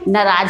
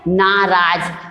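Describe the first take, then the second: First: The first vowel is short. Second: The first vowel is long. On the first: The speaker calls it wrong. "अपन क्या बोलते हैं" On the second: The speaker calls it right. "सही उच्चारण क्या है"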